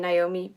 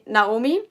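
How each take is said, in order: First: The name has an English pronunciation. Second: The name has a German pronunciation. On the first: This is what she calls herself internationally. "as I'm more international now, I would always refer to myself as Naomi" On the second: This is what people in Germany call her. "in Germany, everybody calls me Naomi"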